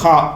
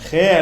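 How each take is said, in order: First: The name ends in an 'ah' vowel. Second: The name ends in an 'ay' vowel. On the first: The speaker calls it right. "இந்த எழுத்துக்கு பேர் ஹா" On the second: The speaker calls it wrong. "ஹே அல்ல இந்த எழுத்துக்கு பேர்"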